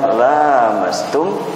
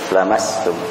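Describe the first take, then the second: First: The first vowel is held long. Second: The first vowel is kept short. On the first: Both people touch each other. "Ada yang membaca panjang" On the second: The touching comes from one side only. "ada yang membaca pendek"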